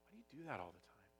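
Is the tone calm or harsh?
calm. It is said in a calm, gentle tone. The speaker is curious and caring. The speaker calls it right. "It feels very different than if I come to them and I say"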